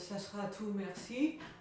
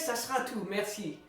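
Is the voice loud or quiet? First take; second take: quiet; loud. First: It is spoken quietly, below a projecting volume. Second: It is spoken loudly, with a projected voice. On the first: The speaker seems shy and unsure. The speaker calls it wrong. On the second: The speaker seems self-assured and confident. The speaker calls it right.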